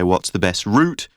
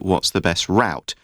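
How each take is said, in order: First: It is said with a British accent. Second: It is said with an American accent. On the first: "British people pronounce it route. We would say" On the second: "Americans will say"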